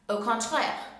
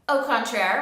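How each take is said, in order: First: It is said with a French accent. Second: It is said with an English accent.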